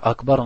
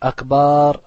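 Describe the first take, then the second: First: The second vowel is short. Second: The second vowel is long. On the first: It means greater. The speaker calls it right. "ça veut dire plus grand" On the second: It means drums. The speaker calls it wrong. "tu rajoutes un alif"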